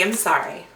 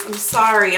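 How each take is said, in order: First: A sheepish, quieter second sorry; softer, lower apology. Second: Said in the usual way. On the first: Real, not acted. To viewers about splurging at Walmart, softer sheepish sorry. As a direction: repeat it softer and lower, almost to yourself.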